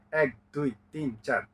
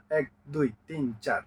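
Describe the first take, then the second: No difference in how they are said.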